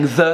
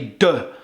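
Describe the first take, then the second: First: It begins with a soft th sound. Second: It begins with a d sound. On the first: "instead of saying the" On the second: "les Québécois they'll say de"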